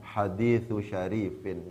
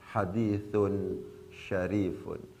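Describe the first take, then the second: First: The words end with -u and -in sounds. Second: Both words end with an -un sound. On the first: The first word is possessed by the second. The speaker calls it wrong. "Nggak mungkin dibaca hadithu syarifin" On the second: The second word describes the first as noble. The speaker calls it right. "pasti bacaannya hadithun syarifun"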